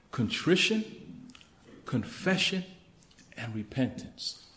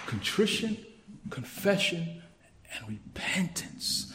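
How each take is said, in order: First: Said in the usual way. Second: Fading to a whisper. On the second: Shown as a demonstration. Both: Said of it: "what godly mourning looks and sounds like".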